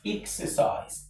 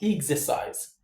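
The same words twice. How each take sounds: First: The x is voiceless, sounding like eks. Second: The x is voiced, sounding like egz. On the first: The speaker calls it right. "It's exercise. X" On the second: The speaker calls it wrong. "this word is not exercise"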